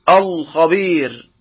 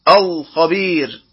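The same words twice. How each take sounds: The two takes are said the same way.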